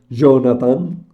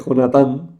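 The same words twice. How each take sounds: First: The name is pronounced the English way. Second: The name is pronounced the Spanish way.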